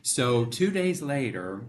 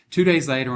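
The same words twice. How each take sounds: First: Said in the usual way. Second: Louder restart. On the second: Real, not acted.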